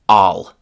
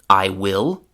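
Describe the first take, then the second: First: It is said as one reduced word. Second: It is said as two full words. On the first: "the chewing gum form" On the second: "the classroom pronunciation"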